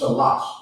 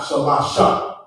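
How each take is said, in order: First: The word stops sharply on its final consonant. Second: The word ends with an added vowel sound. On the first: The speaker calls it right. "It's just shalash" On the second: The speaker calls it wrong. "it's not shalasha"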